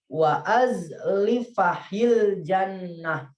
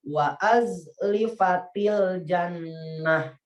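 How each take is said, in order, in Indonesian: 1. Bunyi h ada sebelum "il jannah". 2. Bunyi t ada sebelum "il jannah". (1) "Bisa juga diganti tanya itu dengan ha" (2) "kalau kita dibacanya diwasolkan ya"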